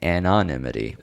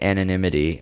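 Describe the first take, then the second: First: The word has a variant, nonstandard pronunciation. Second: The word has its standard pronunciation. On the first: "I'm saying anonymity, which I think is clearer" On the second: "I guess you're supposed to say anonymity"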